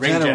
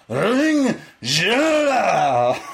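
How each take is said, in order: First: It is said with a plain English accent. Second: It is said with a German-sounding accent.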